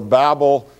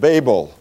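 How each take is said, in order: First: It is pronounced like 'babble'. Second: It is not pronounced like 'babble'.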